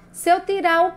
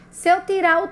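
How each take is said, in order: Both takes have the same delivery.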